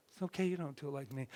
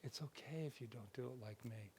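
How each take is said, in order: First: Quick plain version. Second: Soft gentle version. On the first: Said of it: "Do you see how different that is?". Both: Shown as a demonstration.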